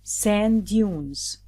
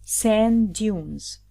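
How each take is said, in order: Both takes have the same delivery.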